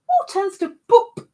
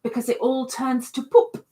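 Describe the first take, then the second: First: Much higher, louder repeat of the punchline. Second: Said in the usual way. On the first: Shown as a demonstration.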